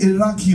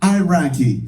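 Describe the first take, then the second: First: It is said with an Arabic pronunciation. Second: It is said with an American pronunciation. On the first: "the right way"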